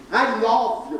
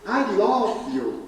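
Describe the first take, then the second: First: Called out high in English, quick; showing off English. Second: Drawn-out English, stretched very slow; slow showy English. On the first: Speaker calls to the departing couple, showing off his English. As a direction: toss it off to sound like an English speaker. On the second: Speaker repeats it to the couple, drawn out slowly in English. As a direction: linger on each word as if proud of your English. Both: Shown as a demonstration. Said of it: "para a impressão que eu falo inglês".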